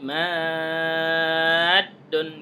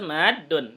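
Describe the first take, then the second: First: The long vowel is stretched out very long. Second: The long vowel is held only briefly. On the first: This is Quran recitation, held for six counts. "Itu harus enam harokat di sini ya. Jadi madun gitu. Kalau membaca Al-Quran" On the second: This is ordinary Arabic speech, not Quran recitation. "Ini kalau bahasa madun, gitu cukup ya. Kalau bahasa Arabnya"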